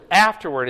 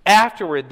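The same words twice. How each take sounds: First: Afterward punched loud as the key word; underlining afterward with the voice; stressed key word. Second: Afterward hit even louder, a falling punch; stressed key word. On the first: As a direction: hit afterward hard and loud. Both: Shown as a demonstration. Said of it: "I underline the key words".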